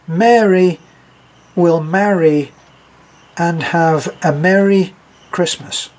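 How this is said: Spoken in a British accent, Mary/marry/merry distinct.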